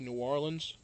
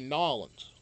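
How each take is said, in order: First: The name is said as separate, distinct parts. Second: The name is run together into one word. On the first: "I would say New Orleans" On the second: "because they run it all together as one thing"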